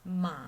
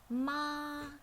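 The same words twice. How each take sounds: First: The pitch dips low and then rises again. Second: The pitch stays flat at a high level. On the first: "falls from middle to low first, and then it rises" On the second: "flat and high"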